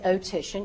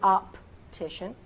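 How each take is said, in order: First: The P sound in the middle is dropped. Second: A slight P sound is heard in the middle. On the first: The speaker calls it wrong. "You wouldn't say optician" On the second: The speaker calls it right. "You'd say optician"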